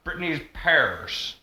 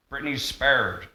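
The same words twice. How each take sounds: First: Slow Southern drawl "Britney's pears"; exaggerated Southern accent. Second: Said in the usual way. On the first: Shown as a demonstration. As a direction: stretch it like a Southern girl. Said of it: "I exaggerated it for effect". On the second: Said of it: "it's like Britney's pears".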